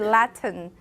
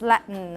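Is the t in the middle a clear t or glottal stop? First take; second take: clear t; glottal stop. First: The middle t is pronounced as a clear t. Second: The middle t is replaced by a glottal stop. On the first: "I never say Latin" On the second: "It's always Latin"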